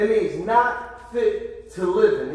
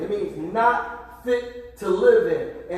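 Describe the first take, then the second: First: Slow, stressing not fit to live in; emphatic. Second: Very slow, each word of "not fit to live in" weighed; slower emphasis. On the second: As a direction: lean on "live". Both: Shown as a demonstration. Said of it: "this is what it means".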